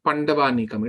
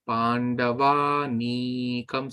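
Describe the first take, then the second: First: The marked vowel is cut short. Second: The marked vowel is held long. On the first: The speaker calls it wrong. "this is not Pandavanikam" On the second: The speaker calls it right. "So you have to elongate"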